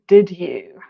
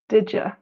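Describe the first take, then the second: First: The second word is said fully as 'you'. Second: The second word is reduced to 'ya'. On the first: "what do you think happens to did you?" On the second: "It becomes exactly did ya?"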